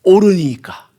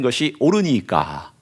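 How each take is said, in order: First: Higher and louder 옳으니까, falling hard at the end; defiant retort. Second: Slow, even reading with a falling close; solemn reading. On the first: Retold or imitated. Habakkuk snapping his final challenge at God, loud and defiant. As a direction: throw 옳으니까 back like a challenge. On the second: Shown as a demonstration. Preacher reading the verse's last word to the congregation, slow and solemn. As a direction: let 옳으니까 fall slowly as scripture. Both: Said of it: "뭐라고 하나님께 대드냐면".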